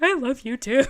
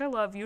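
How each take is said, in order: First: Higher, hammed-up tearful answer; mock emotional reply. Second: Softly voiced, choked-up dad imitation; emotional dad. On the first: Daughter answering her emotional dad, retold in a high mock-weepy voice. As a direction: overplay the emotion, pitched up. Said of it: "started getting emotional". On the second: Dad saying goodbye at the airport, retold soft and emotional. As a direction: lightly act a dad getting emotional, softer. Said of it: "my dad started getting emotional".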